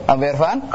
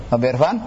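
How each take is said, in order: No difference in how they are said.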